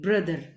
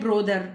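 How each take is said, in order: First: The first vowel is a short uh sound. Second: The first vowel is a full o sound. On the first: The speaker calls it right. "आपको बोलना है ब्रदर" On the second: The speaker calls it wrong. "ब्रोदर is not a correct pronunciation, it's a wrong pronunciation"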